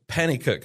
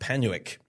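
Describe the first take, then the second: First: The name is said with three syllables, Pennycook. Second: The name is said with two syllables, Penwick. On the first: The speaker calls it right. "it's Pennycook and District" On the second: The speaker calls it wrong. "not Penwick. I think that's how I pronounced it last time. Completely wrong"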